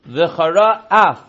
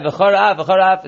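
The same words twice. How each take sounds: First: V'chara af said slowly with a clear break before af; pause between words. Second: V'charaf blended into one word with no break; run together wrongly. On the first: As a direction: separate V'chara from af with a small gap. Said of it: "You should pause between v'chara and af". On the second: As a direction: slur V'charaf into a single word. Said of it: "It sounds like v'charaf". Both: Shown as a demonstration.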